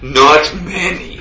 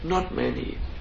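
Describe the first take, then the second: First: It is said in a showy, proud tone. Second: It is said in a modest, humble tone. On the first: The speaker shows off the achievement. The speaker calls it wrong. "You're not like this" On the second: The speaker plays down the achievement. The speaker calls it right. "You go in a very humble way"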